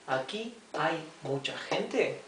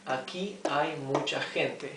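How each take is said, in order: First: It is said with question intonation. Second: It is said with statement intonation. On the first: It asks whether many people are here. "we change our intonation as we speak" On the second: It states that many people are here. "this is an affirmation"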